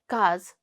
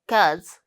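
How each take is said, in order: First: Only the final syllable of the word is said. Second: Only the final syllable of the word is said.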